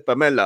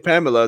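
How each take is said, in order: First: The name is said with a Spanish accent. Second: The name is said with an English accent. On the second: "they won't say Pamela"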